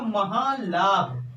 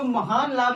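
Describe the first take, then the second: First: The n becomes a nasalized l sound. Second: A clear n sound is heard before the l. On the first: "ये हो जाएगा महान लाभ" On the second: "महान लाभ लिखा है"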